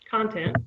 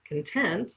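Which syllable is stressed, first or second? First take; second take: first; second. First: The stress is on the first syllable. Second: The stress is on the second syllable. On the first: It means what something is made of. "If you stress the first syllable" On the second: It means happy. "if you stress it on the second syllable"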